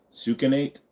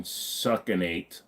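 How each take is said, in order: First: "Succinate" with first syllable like "sue"; questioning second try. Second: "succinate" with first syllable like "suck"; sounding it out. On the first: Streamer unsure of a drug name, "Succinate" tried as SOO-kuh-nate. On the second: Streamer reading out a sleep aid's name, "succinate" as SUCK-uh-nate. Trying out a drug name's pronunciation. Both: Shown as a demonstration.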